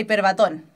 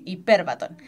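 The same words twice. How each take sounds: First: The stress falls on the last syllable. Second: The stress falls on the second syllable. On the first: The speaker calls it wrong. "muchas veces dicen la hiperbatón. No" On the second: The speaker calls it right. "el acento va en la E"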